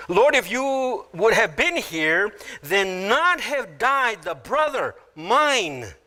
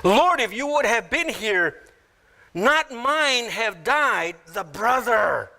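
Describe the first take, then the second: First: Higher, slow reading building to a drawn-out "mine"; stress on MINE. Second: Higher, slow reading landing on final "brother"; stress on BROTHER. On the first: Martha grieving to Jesus, possessive stress on "mine". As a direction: land on final "mine", stretched and falling. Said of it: "The last word is mine". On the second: Mary to Jesus, weight on "brother" rather than herself. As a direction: let the line fall onto a drawn-out "brother". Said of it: "Here's Mary's emphasis". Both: Shown as a demonstration.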